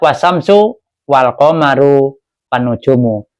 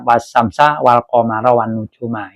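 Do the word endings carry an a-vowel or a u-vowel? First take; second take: u-vowel; a-vowel. First: The word endings are pronounced with a u vowel. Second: The word endings are pronounced with an a vowel. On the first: The words begin a new sentence as its subject. "Jadi ada yang wasamsu wal komaru wan nujumu" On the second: The words are objects of the verb. "dibaca nasab, fathah di atas ya"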